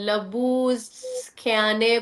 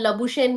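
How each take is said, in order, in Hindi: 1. नाम के बीच में 'sk' ध्वनि है। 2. नाम के बीच में 'sh' ध्वनि है। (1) "इट्स लबूस्ख्याने कुछ इस तरह करके है" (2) "उनके नाम की प्रोनाउंसिएशन लबुशेन नहीं है"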